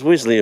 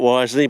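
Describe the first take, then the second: First: The first syllable sounds like 'whiz'. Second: The first syllable sounds like 'wise'. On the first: "it's pronounced Wisley apparently" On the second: "it's spelt wisely"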